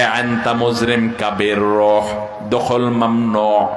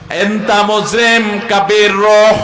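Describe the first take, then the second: First: Slow, low Gulf Arabic pronunciation; quoting Gulf Arabic words slowly; dialect Arabic quote. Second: Slow, higher, louder Gulf Arabic "এনতা মুজরিম কাবির রহ"; showing Gulf Arabic dialect slowly and loudly; regional Arabic. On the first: Retold or imitated. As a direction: read out the Dubai Arabic words slowly and deliberately. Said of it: "Dubai থেকে তারা জানিয়ে দিয়েছে". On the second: Shown as a demonstration. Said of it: "আরবি থেকে এসেছে, কিন্তু আঞ্চলিকতার ছোঁয়া".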